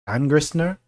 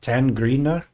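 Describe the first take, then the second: First: The S before the N is pronounced. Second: The S before the N is left silent. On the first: "Is that right?" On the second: "That silent S"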